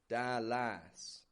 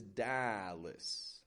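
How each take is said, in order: First: The second syllable has a full, unreduced vowel. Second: The second syllable has a weak, reduced vowel. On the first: The speaker calls it wrong. "I'm not giving it a" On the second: The speaker calls it right. "It's getting a schwa"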